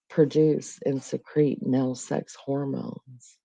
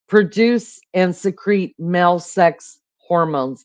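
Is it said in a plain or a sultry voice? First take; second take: sultry; plain. First: It is said in a sexy, sultry voice. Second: It is read in a plain, ordinary voice.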